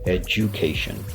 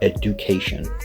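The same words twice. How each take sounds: First: The middle consonant sounds like a j. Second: The middle consonant is a clear d sound. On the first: The speaker calls it right. "we're actually going to pronounce the D as a J" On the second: The speaker calls it wrong. "they see the D and they decide to pronounce it"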